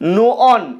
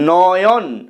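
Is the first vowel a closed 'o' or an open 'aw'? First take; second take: closed; open. First: The first vowel is a closed o sound. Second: The first vowel is an open aw sound. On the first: The speaker calls it wrong. "নো অন এভাবে উচ্চারিত হয়নি" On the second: The speaker calls it right. "অ এর মতোই উচ্চারিত হয়েছে"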